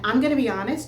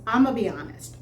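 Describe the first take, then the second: First: 'Going to' is shortened to 'gonna'. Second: 'I'm going to' is squeezed into 'I'ma'. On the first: This is everyday casual speech. "which is what I say naturally" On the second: This is a Southern regional way of speaking. "his pronunciation is I'ma be honest"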